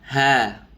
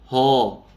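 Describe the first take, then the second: First: The letter is light and relaxed, with an open vowel. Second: The letter is heavy, with a dark rounded vowel. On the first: The speaker calls it right. "pengucapannya rileks. Contoh ha" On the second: The speaker calls it wrong. "bukan ho"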